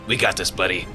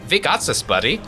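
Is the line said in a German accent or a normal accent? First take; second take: Normal accent; German accent. First: It is said in a plain, unaccented voice. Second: It is said in a German accent. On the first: The speaker calls it wrong. "I forgot that I have an accent" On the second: The speaker calls it right. "in a German accent"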